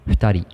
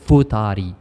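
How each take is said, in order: First: It begins with a soft breathy lip sound. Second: It begins with a hard f sound. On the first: The speaker calls it right. "we say futari, So it's a hu sound" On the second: The speaker calls it wrong. "ما كنقولوش fu"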